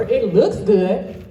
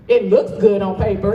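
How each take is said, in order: First: "looks" drawn out slowly with a rising, doubting tune; slow sarcastic stress. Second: "looks" pressed firmly, the rest plain; stress on looks. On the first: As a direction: stretch "looks" slowly, ending up as if questioning. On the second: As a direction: lean into "looks" on "It looks good on paper". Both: Shown as a demonstration. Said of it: "but what are we actually doing?".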